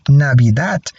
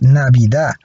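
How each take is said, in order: First: The final d sound is clearly pronounced. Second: The final d sound is left out. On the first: "most people don't say Navidad" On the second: "but Navidad"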